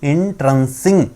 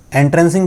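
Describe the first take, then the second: First: एंट्रेंसिंग said slowly with an "in" start and a rise at the end; correct pronunciation. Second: एंट्रेंसिंग said the common way, with an Indian-style "en" start; showing how many people say एंट्रेंसिंग; common mispronunciation. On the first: Teacher gives students the correct एंट्रेंसिंग, slow and careful. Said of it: "क्या होता है इसका pronunciation". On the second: Teacher shows the usual wrong way to say एंट्रेंसिंग. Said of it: "भी हम कई लोगों से सुनते हैं". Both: Shown as a demonstration.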